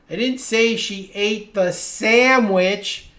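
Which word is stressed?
sandwich. The stress falls on the word sandwich. She ate some other food. "Maybe I said she ate the pizza or the ice cream"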